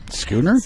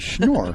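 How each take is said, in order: First: The name is said like the word schooner. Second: The name is said as one syllable, Schnorr. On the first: The speaker calls it wrong. "A lot of people call it Schooner" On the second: The speaker calls it right. "you actually said it right"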